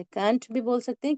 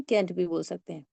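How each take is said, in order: First: "कांट" with a broad open "a"; kaant. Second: "कैंट" with a short front "a", like kent. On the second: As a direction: keep "कैंट" short and flat. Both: Shown as a demonstration. Teacher contrasting two ways of saying can't. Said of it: "आपके mood के ऊपर".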